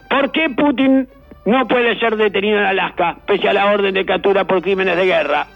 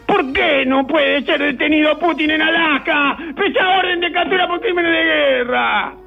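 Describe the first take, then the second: First: The question is read in a plain, neutral tone. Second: The question is read with an exaggerated, mocking intonation.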